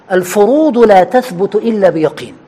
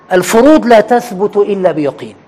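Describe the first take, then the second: No difference in how they are said.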